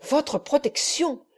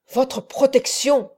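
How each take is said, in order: First: « Votre » plus aigu, lent et sans force; il répète le mot avec dédain; mépris. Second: « protection » lancé plus fort, lent, qui retombe; il se redresse, outré; indignation. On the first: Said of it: "fixant sur son visage deux yeux enflammés". (le moine répète avec mépris) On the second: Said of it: "s'écria-t-il". (cri indigné du moine à Rodrigo) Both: A narrator's reading.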